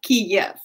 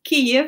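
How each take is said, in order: First: The name is pronounced the Russian way. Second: The name is pronounced the Ukrainian way. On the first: This is the form taken from another country's language. The speaker calls it wrong. "which is the Russian way of presenting it" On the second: This is the form the country itself uses. The speaker calls it right. "the capital city of uh, Ukraine is"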